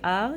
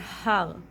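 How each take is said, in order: First: The word starts with no breathy h sound. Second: The word starts with a breathy h sound. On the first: The speaker calls it wrong. "you don't say ar" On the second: The speaker calls it right. "you say har"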